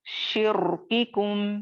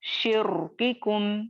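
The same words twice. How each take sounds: Both takes have the same delivery.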